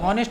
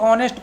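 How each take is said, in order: First: The word starts with an audible h sound. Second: The word starts with a vowel, no h. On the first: The speaker calls it wrong. "यहाँ पर एच का उच्चारण नहीं करते, हॉनेस्ट नहीं पढ़ते" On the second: The speaker calls it right. "एच silent रहता है, इसको ऑनेस्ट पढ़ते हैं"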